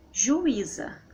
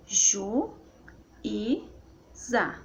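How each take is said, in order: First: Said in the usual way. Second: "Ju, I, za" in three separate beats; syllable by syllable. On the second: Shown as a demonstration. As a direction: clear pause between Ju, I and za. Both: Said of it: "Então fica assim".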